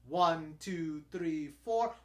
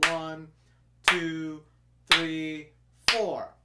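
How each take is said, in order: First: The counting is at a faster pace. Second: The counting is at a slower pace.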